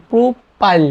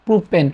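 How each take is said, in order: First: প্রোপাইল pitched higher, with the final l sounded clearly; ending in l. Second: প্রোপেন said with a clear final n sound; ending in n. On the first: Teacher showing students the ending: প্রোপাইল with a clear final l. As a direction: lift প্রোপাইল and finish cleanly on the l. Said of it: "লাস্টে ল উচ্চারণ". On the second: Teacher contrasting for students: প্রোপেন with its final n. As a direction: land firmly on the n at the end of প্রোপেন. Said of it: "লাস্টে দন্ত্যান্ন উচ্চারণ করতেছি". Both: Shown as a demonstration.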